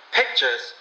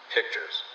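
First: A small let-down cry on "Pictures!"; disappointed cry. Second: Lower, softer dry echo of "Pictures". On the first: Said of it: "gave a cry of disappointment". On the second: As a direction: repeat "Pictures" drily, quieter. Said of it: "echoed the man dryly". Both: A narrator's reading.

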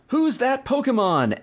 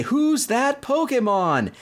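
First: High, drawn-out quiz announcer; mock TV announcer voice; announcer call. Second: High, slow TV announcer; dramatic quiz host voice; announcer call. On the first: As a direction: call it like the show's host. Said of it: "comes back and says". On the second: Retold or imitated. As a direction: boom it out like the show's quiz announcer. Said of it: "they'd say".

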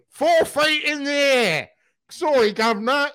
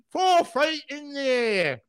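First: High, slow, plummy English impression of [name]; mock English accent. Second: High, slow Cockney imitation of [name]; mock Cockney accent. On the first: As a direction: ham up a posh English lilt. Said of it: "[name] went so English in that scene". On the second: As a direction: ham up a Cockney lilt, drawn out. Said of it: "switched from American to Cockney".

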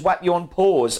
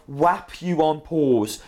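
First: "whap you on pause" said briskly as one familiar phrase; catchphrase demonstrated properly. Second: "whap you on pause" sounded out slowly; puzzled catchphrase imitation. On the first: Shown as a demonstration. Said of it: "kind of like that, but just". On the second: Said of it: "What are you saying when you cut?".

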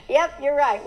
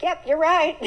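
First: Said through a laugh; sheepish laughing yes; laughing admission. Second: Sheepish admission. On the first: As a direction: admit it laughing at yourself. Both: Retold or imitated. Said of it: "And I was like".

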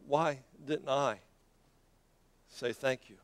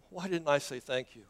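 First: Soft, low and slow, long pause before "say thank you"; slow, pondering regret. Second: Soft question in one run; quiet regret. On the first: One of the nine to himself, slow and pondering. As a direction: spell out "Why didn't I", pause, then "say thank you". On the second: One of the nine to himself, quietly regretful. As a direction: ask yourself softly, without breaking the phrase. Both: Acted.

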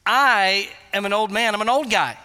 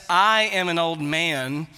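First: "I" leaned on, a touch louder; emphatic "I" as an old man protests; stress on I. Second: Said in the usual way. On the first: Retold or imitated. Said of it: "He's putting emphasis on". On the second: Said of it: "is emphatic in the Greek language".

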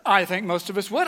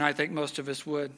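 First: "would" said louder and rising; emphatic. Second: Said in the usual way. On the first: Real, not acted. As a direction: lean on "would" to win them over. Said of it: "I think I would lie". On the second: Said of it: "I think I would feel justified".

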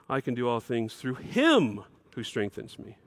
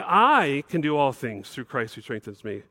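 First: "him" in "through him who strengthens me" weighted as the key word; stress on him. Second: Said in the usual way. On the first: Shown as a demonstration. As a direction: lean on "him", softer and lower overall. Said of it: "we should say". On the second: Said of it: "we might want to say".

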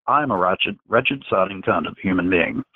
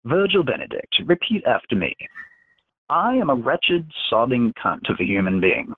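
First: Lightly voiced young man, repeating mechanically; Virgil's voice. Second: Menacing telepath dictating words to his victim; Dax's commanding voice. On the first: Virgil repeating the insult under mind control, lightly voiced and obedient. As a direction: near the reader's own voice, echoing the order obediently. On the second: Acted. Dax dictating an insult for Virgil to repeat, pitched-up commanding voice.

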